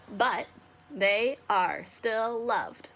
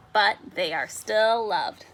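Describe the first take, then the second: First: Very slow, paused after "But"; syllable by syllable. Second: Slow, louder, in one connected phrase; deliberate line reading. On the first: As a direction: count out the line one word at a time. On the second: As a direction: read the last line out slowly and firmly. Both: Shown as a demonstration. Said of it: "Five syllables again".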